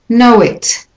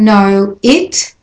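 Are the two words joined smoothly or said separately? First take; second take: joined; separately. First: The words are joined by a linking w sound. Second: The words are said separately, without a linking sound.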